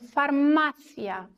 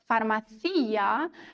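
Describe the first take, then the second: First: The stress falls on the syllable ma. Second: The stress falls on the syllable with the i. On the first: The speaker calls it right. "müssen wir auf der vorletzten Silbe betonen" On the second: The speaker calls it wrong. "das wäre tatsächlich nur der Fall, wenn wir einen Akzent auf dem I hier hätten"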